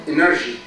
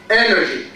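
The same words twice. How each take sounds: First: "energy" with the first syllable weak and low, stress moved later; wrong stress on energy. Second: "Energy" with a firm first syllable, falling away after; stress on first syllable. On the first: Teacher showing students the mistake, wrongly stressed "energy". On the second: Teacher modelling the word for students, first-syllable stress on "Energy". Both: Shown as a demonstration. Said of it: "Stress on the first syllable".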